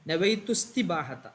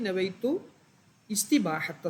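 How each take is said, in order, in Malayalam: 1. വാക്കുകൾ ചേർന്നാണ്, ആദ്യത്തെ സ്വരം ഒഴിവാക്കുന്നു. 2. ആദ്യ വാക്കിനു ശേഷം ഒരു നിർത്തുണ്ട്, സ്വരം ഉച്ചരിക്കുന്നു. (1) "കൂട്ടി വായിക്കുമ്പോൾ നവൈത്തുസ്തി എന്ന് വായിക്കണം" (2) "നവൈത്തു എന്ന് വേണ്ടി നിർത്തുകയാണെങ്കിൽ"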